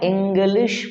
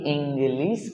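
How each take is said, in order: First: The word ends with a sh sound. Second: The word ends with a plain s sound. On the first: The speaker calls it right. "मैं इंग्लिश पढ़ाता हूं" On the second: The speaker calls it wrong. "ना कि इंग्लिश"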